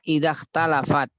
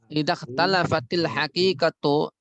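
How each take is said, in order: First: The word ends abruptly on the final t. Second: An added i vowel links into the next word. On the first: This is the basic form of the word. "aslinya idza talafat" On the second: The word is joined to the following word. "Kita baca karena kita sambung, kita harokat kasroh"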